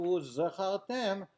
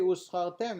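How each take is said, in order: First: The consonant after the first vowel is a z. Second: The consonant after the first vowel is an s. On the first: You should remember. The speaker calls it right. "instead of Uzchartem" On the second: You got rewarded. The speaker calls it wrong. "If you say Uzchartem instead of"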